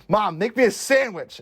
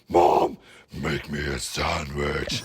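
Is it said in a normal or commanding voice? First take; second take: normal; commanding. First: It is said in an ordinary voice. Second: It is said in a commanding king voice.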